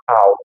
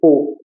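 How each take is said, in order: First: It is said as a gliding a-u vowel. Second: It is said as a single o vowel. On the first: The speaker calls it wrong. "Eu não vou falar um AU" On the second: The speaker calls it right. "vai ser O"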